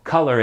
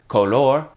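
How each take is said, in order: First: It is pronounced the English way. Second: It is pronounced the Spanish way. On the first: "Most words in English that end in O R" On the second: "are exactly the same in Spanish"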